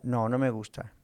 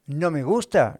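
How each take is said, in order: First: "No, no me gusta" as a settled admission; low-key, conceding "No, no me gusta"; matter-of-fact answer. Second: "gusta" louder, as a rhetorical question; louder echo-question on "No me gusta"; self-posed question. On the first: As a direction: answer your own question, falling on "gusta". Answers his own question. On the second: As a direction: pose "¿No me gusta?" to the listeners, raised and emphatic. Asks himself, then answers. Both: Acted.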